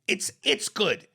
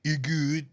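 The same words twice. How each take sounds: First: "It's, it's good" slow and higher, with the s sounded; corrective articulation. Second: Put-on "You good?" clipped to a babyish "ih good"; mock childlike dialect. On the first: Shown as a demonstration. Correcting the mocked grammar. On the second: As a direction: imitate "You good?" as uneducated "ih good". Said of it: "You talk like a child".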